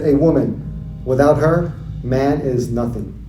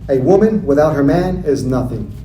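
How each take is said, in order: First: It is said with a pause after 'her'. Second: It is said without a pause after 'her'.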